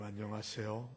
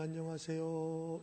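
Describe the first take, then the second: First: The voice is pressed down, deep and heavy. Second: The voice is lighter and pitched somewhat higher. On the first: The speaker wants to sound dignified and weighty. The speaker calls it wrong. "뭐 이렇게 좀 중후한 목소리를 내려고 했던 것 같아요" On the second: This is the pitch range that suits the speaker's vocal cords. The speaker calls it right. "백이십오에서 백삼십이 어느 정도냐면요"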